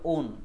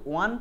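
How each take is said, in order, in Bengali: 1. প্রত্যয়টি 'own'-এর মতো শোনায়। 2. প্রত্যয়টি 'wan'-এর মতো শোনায়। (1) "নাম হবে ওন" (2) "এখানে কিন্তু ওয়ান প্রোনাউন্স করা যাবে না"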